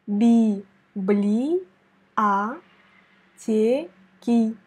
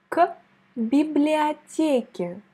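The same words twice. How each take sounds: First: Би-бли-а-те-ки broken into very slow syllables. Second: Библиотеке slowly; slow model word. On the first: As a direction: spell out Би-бли-а-те-ки beat by beat. (Би-бли-а-те-ки syllabe par syllabe, très lentement) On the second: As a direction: say библиотеке slowly for the learner to repeat. (библиотеке lentement, à répéter) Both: Shown as a demonstration. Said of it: "prononce avec moi ce mot".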